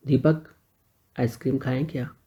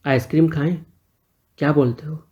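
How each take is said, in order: First: Softer, smiling question. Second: Said in the usual way. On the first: A narrator's reading. Sunil invites Deepak for ice cream, smiling softly. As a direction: let a smile into the invite. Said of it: "Sunil ने मुस्कुरा के कहा". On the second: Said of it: "फिर बोला".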